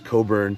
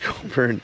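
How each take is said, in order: First: The name is said without any 'k' sound. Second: The name is said with a clear 'k' sound.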